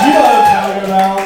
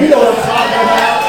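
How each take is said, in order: First: Faster shout. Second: Loud crowd call. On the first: Crowd call again. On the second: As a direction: shout it out, rising. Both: Real, not acted.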